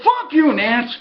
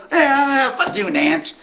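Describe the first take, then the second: First: Playful curse, not mad; friendly ribbing, not angry; joking curse. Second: A trainer brushing off a joke, easygoing; his easygoing tone. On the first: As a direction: toss it off like a friendly jab. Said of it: "he didn't say it, you know, like, mad". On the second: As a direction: shrug it off, no heat at all. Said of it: "just his tone". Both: Retold or imitated.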